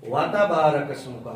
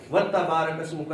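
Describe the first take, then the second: First: وَتَبَارَكَ اسْمُكَ begun "wa-ta", each syllable on its own; separated syllables. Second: وَتَبَارَكَ اسْمُكَ begun "watta", وا fused to a doubled تا; joined syllables. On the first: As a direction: keep وا apart from a single تا in وَتَبَارَكَ اسْمُكَ. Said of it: "وا تا، وا اور تا". (وَتَبَارَكَ اسْمُكَ، واو اور تا الگ الگ) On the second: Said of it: "نہیں". (وَتَبَارَكَ اسْمُكَ، واو کو تا سے ملا کر) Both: Shown as a demonstration.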